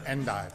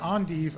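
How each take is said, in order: First: The word is pronounced the English way. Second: The word is pronounced the French way. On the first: "it's either endive or endive. Make up your mind, French or English" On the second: "it's either endive or endive. Make up your mind, French or English"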